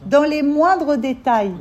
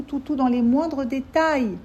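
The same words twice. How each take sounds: First: MOINDRES DÉTAILS loud, high and very drawn out; louder emphatic repeat. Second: MOINDRES DÉTAILS drawn out slowly, pitched up; emphatic insistence. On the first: Teacher driving home every detail, loud slow emphasis. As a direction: hammer "moindres détails" slowly at raised pitch. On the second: Teacher warning her listeners it covers every detail, slow emphatic insistence. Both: Real, not acted.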